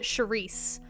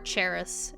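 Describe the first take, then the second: First: The name begins with a Sh sound. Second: The name begins with a Ch sound. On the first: "everyone pronounces it" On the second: "everyone pronounces it"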